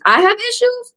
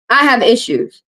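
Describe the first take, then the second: First: Incredulous. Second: Said in the usual way. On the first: Real, not acted. Repeating the insult to her viewers, high and disbelieving. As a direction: pitch jumps high, voice drops softer in disbelief.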